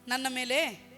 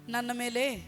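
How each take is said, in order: Both takes have the same delivery.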